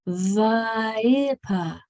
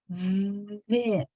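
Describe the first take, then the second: First: Extra uh vowels follow the v and p. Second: Clean consonants with no extra vowels added. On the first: The speaker calls it wrong. "if you thought that that was a va ... a pa" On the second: The speaker calls it right. "It's vip"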